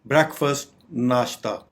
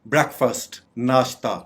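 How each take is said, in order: Both takes have the same delivery.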